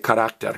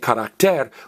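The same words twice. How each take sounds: First: The stress is on the second syllable. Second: The stress is on the last syllable. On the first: The speaker calls it right. "we say carácter" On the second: The speaker calls it wrong. "we don't say carácter"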